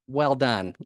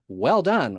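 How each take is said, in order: First: It is said in a sarcastic, mocking tone. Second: It is said in a sincere, genuine tone. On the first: The praise is not meant honestly. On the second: The praise is meant honestly.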